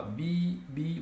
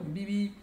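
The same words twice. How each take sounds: First: "bi, bi" as two drawn-out beeps; the wrong way: stretch both; separated, both stretched. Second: "bibi" with only the second "bi" drawn out; stretched second syllable. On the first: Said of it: "Você não fala". (errado: "bi, bi" os dois esticados) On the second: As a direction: hold the last "bi". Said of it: "Você não fala bi, bi, você fala bibi". ("bibi" esticando só o segundo "bi") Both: Shown as a demonstration.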